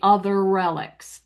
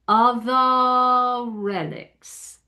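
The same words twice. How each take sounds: First: The R of 'other' is pronounced and links. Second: The R of 'other' is dropped for a vowel. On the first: "We say we would say other relics because you end one with R" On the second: "because they don't pronounce the R"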